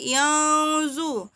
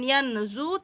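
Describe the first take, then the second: First: The n sound is hidden, blurred into nasality. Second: The n sound is pronounced clearly and distinctly. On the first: The speaker calls it right. "dibaca samar bukan jelas" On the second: The speaker calls it wrong.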